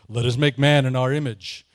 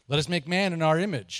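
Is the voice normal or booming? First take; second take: booming; normal. First: It is read in a deep, booming voice. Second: It is read in a normal voice.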